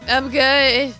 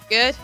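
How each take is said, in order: First: It is said loudly. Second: It is said quietly.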